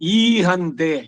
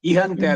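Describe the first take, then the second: First: The first vowel is held long. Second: The first vowel is cut short. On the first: The speaker calls it right. "ದೀರ್ಘ ಸ್ವರಗಳಲ್ಲಿ" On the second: The speaker calls it wrong. "ಅಲ್ಲ"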